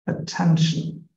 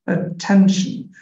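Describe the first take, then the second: First: All syllables get the same force. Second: The middle syllable gets extra force. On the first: The speaker calls it wrong. "in Bangla we don't have any syllable which is getting stressed so it's" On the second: The speaker calls it right. "you are giving extra force on this ten syllable right here ten here we go this is right"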